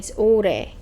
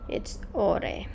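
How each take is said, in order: First: The vowel sounds like 'u'. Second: The vowel sounds like 'o'. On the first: The speaker calls it right. "U, not O" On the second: The speaker calls it wrong. "Sorry, I'm studying Spanish and Korean at the same time"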